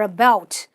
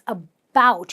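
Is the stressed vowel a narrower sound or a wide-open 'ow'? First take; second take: narrower; wide-open. First: The stressed vowel is narrower, not a full 'ow'. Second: The stressed vowel is a wide-open 'ow' sound. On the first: The speaker calls it wrong. "A lot of people say about" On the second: The speaker calls it right. "You have to open your mouth and go ow"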